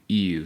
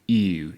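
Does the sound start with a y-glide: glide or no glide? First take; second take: glide; glide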